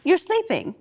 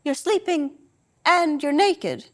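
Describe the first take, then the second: First: High, level mock-flat repeat of the words; deadpan mother echoing her son; matter-of-fact repeat. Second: Slow, raised, level mock-deadpan mother; deadpan mother catching her son out; matter-of-fact. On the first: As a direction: echo his line back, deadpan and higher. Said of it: "repeats my words with the same matter-of-fact intonation". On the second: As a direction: spell it out flatly, slowly. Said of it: "same matter-of-fact intonation".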